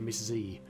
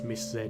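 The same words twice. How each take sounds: First: Z is said the American way, as zee. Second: Z is said the British way, as zed.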